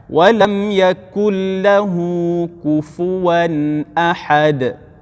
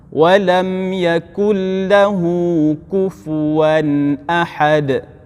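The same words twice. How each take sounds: No difference in how they are said.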